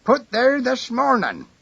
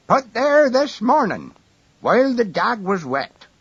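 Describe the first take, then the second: First: Put-on high, slow old man voice; a tiny old man, high and slow; small elderly voice. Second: Put-on high, loud old man voice; a tiny old man piping up; small elderly voice. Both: A narrator's reading. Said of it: "A small, elderly voice".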